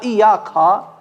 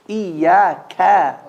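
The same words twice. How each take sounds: First: The k sound is heavy and deep. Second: The k sound is light and forward. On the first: The speaker calls it wrong. "Not iyaka" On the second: The speaker calls it right. "The kaf is never heavy"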